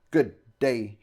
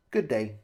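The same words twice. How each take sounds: First: Curtly declared dismissal; hostile sign-off. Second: Understated, brief sign-off; matter-of-fact statement. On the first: Shopkeeper wanting visitors gone, pointedly unfriendly. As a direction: declare it as if wishing the opposite. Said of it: "in the tone of voice that said he hoped we didn't have a good day at all". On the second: Bank avatar dismissing the host, matter-of-factly. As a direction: state it with little feeling. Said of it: "he stated". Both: A narrator's reading.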